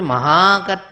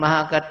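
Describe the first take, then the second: First: The word is said with strong force. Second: The word is said weakly, without force. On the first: The greatness in the word keeps its power. The speaker calls it right. "It has to be Mahakarta" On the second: The greatness in the word loses its power. The speaker calls it wrong. "But that is what happens. We are saying Mahakarta"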